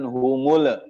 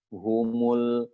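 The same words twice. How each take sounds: First: The final lam is released with a bounce. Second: The final lam is held without a bounce. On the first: The speaker calls it wrong. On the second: The speaker calls it right.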